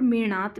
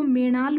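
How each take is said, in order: First: मेणात with a retroflex ण and a final dental त; second name variant. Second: मेणाल with a retroflex ण and a final ल; first name variant. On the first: Teacher giving students the other name, clear मेणात ending in t. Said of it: "और मेणात भी बोलते हैं". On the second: Teacher giving students the first name, clear मेणाल ending in l. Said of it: "इसको मेणाल भी बोलते हैं". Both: Shown as a demonstration.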